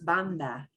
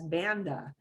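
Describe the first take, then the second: First: The word is said with Spanish sounds. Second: The word is said with English sounds. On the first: The speaker calls it right. "but it is banda" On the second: The speaker calls it wrong. "Your brain desperately wants to say it as banda"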